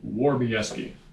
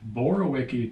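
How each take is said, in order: First: The name begins with a W sound. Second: The name begins with a B sound. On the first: This is how everybody actually says the name. "and get a W" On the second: This is how the name is spelled. "How do you start with the B"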